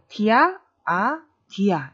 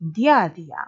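First: The words are separated by short breaks. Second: The words run together without any breaks. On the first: The speaker calls it wrong. "이렇게 끊어 읽으시려고 했다면" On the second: The speaker calls it right. "연음으로 쭉 이어지기 때문에"

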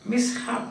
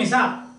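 First: The h is sounded separately after the s. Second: The h is not sounded separately after the s. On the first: The speaker calls it right. "that H is pronounced" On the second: The speaker calls it wrong. "Don't say mishap"

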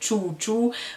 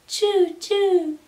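First: It is said in a plain, ordinary voice. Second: It is said in a cute, tiny, mouse-like voice.

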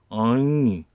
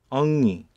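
First: The word is said slightly drawn out. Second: The word is said short, without lengthening. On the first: This is how the Ainu say it. "아이누는 엉이. 약간 길게 발음하면 됩니다" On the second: This is how the Cherokee say it. "체로키는 엉이라고 읽고"

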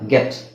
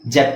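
First: The word begins with a hard g sound. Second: The word begins with a j sound. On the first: The speaker calls it right. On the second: The speaker calls it wrong. "ಜೆಟ್ ಅಲ್ಲ"

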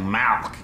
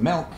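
First: The vowel sounds like 'ah'. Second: The vowel sounds like 'ih'. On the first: The speaker calls it wrong. "you're saying it wrong. You're saying Malk. Like it's a disease" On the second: The speaker calls it right. "but I can get you some milk"

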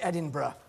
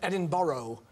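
First: Edinburgh is pronounced the local British way. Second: Edinburgh is pronounced the way Americans say it. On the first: The speaker calls it right. "An American who's learned to say Edinburgh" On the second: The speaker calls it wrong. "rather than Edinburgh"

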